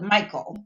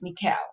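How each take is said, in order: First: It sounds like the common English name. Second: It follows the Hebrew pronunciation of the name. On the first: "some people call it Michael" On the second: "I looked up the Hebrew pronunciation and it's Michal"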